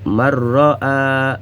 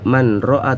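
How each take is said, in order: First: The n sound merges into a doubled r. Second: The n sound is pronounced before the r. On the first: The speaker calls it right. "Jadi suara nun hilang, langsung masuk ke huruf ra yang bertasydid" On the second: The speaker calls it wrong. "tidak boleh dibaca man ro'a"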